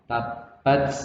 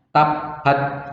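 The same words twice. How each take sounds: First: The t is followed by a slight hiss. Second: The t is followed by no hiss. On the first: The speaker calls it right. "setelah ada S sedikit" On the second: The speaker calls it wrong. "Salah kalau membaca nggak ada S-nya"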